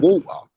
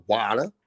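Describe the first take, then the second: First: "water" as waw-tuh, dropping the r; British pronunciation. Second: "water" as wah-der, the version being rejected; mimicked American "water"; American pronunciation. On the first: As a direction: stress a British "water" with rounded aw. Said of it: "It's water". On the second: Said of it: "It's not water". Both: Shown as a demonstration.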